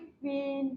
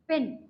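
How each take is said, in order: First: The vowel is long and drawn out. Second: The vowel is short and clipped. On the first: The speaker calls it wrong. "ना कि" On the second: The speaker calls it right. "बस छोटा-सा बोलना हमें"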